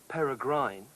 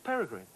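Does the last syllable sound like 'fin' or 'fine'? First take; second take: fine; fin. First: The last syllable has a long 'ine' vowel. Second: The last syllable has a short 'in' vowel. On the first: The speaker calls it wrong. "you don't say peregrine" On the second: The speaker calls it right. "it's peregrine"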